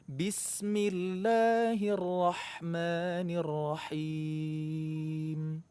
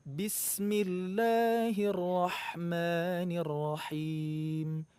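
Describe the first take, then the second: Both takes have the same delivery.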